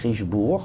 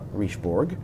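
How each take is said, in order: First: The final G sound is silent. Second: The final G sound is pronounced. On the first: The speaker calls it right. "you don't pronounce the G. It's Richebourg" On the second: The speaker calls it wrong. "not Richebourg"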